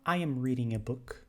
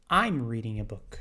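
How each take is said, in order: First: I am is said as two full words. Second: I am is shortened into one syllable.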